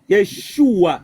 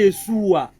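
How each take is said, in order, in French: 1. La consonne du milieu est un son 'sh'. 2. La consonne du milieu est un son 's'. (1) "c'est Yeshua" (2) "c'est pas Yeshua"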